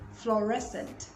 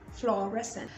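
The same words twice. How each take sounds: The two takes are said the same way.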